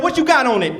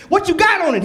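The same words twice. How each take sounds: First: Said in the usual way. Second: Pushier repeat. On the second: Retold or imitated. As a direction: press him harder the second time. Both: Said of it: "I said".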